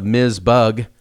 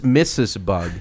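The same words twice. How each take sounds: First: Miz Bugg said slowly with a short buzzing Miz. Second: Missus said slowly and fully in two syllables; Missus Bugg. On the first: Host says the name Miz Bugg slowly, the wrong way. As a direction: Miz said as one quick syllable with a z. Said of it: "it sounds better, Miz Bugg". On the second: Teacher slowly corrects Missus over Miz. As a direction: stretch out Missus, a firm correction. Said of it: "And she goes". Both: Retold or imitated.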